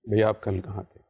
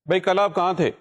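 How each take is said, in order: First: It is spoken quietly, in a normal conversational voice. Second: It is spoken loudly, projected to reach far away. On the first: It suits close listening, not a large hall. The speaker calls it wrong. "अगर आप ऐसे बोलेंगे तो वो जो पीछे बैठे हुए हैं... कहेंगे कि भाई जरा ऊंचा बोलिए" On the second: It lets people at the back hear it. The speaker calls it right. "Stage पे आप आए हैं तो लामहला आपने इसी लाइन को कुछ इस तरह से कहना है"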